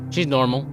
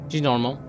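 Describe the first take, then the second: No difference in how they are said.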